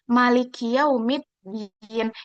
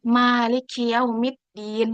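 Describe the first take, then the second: First: The vowel after the m is short. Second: The vowel after the m is long.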